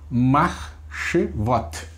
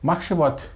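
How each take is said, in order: First: Slow syllable by syllable. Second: "Marchevot" read smoothly in one go. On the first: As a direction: stretch "Marchevot" out slowly, syllable by syllable. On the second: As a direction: run "Marchevot" together as one word. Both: Shown as a demonstration. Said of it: "Aí você lê de uma vez só".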